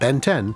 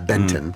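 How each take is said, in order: First: It sounds like two separate, evenly stressed words. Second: It sounds like a single word with reduced ending. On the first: The speaker calls it wrong. "Not Ben ten, although it's spelled the same way" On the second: The speaker calls it right. "but yeah, Benton"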